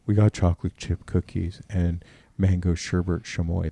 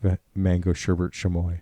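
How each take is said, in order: First: Lightly voiced kid sister, a touch lower; doing her put-on voice, only a little lower; mock voice for Miranda. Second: Lightly voiced Miranda, a touch lower; mock voice for Miranda. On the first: Mocking Miranda's put-on voice to the friends, barely changed. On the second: Teasing Miranda again with her old put-on voice. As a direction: repeat the mocking voice, only slightly lower. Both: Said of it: "That's my voice for her".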